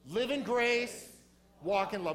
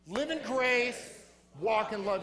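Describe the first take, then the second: First: It is said in a plain, casual way. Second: It is said forcefully, with conviction.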